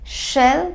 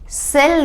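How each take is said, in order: First: The word begins with an sh sound. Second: The word begins with a plain s sound. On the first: The speaker calls it right. "कौन सा श? ये वाला श।" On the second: The speaker calls it wrong. "सेल नहीं करेंगे, ये वाला स हम नहीं यूज करेंगे"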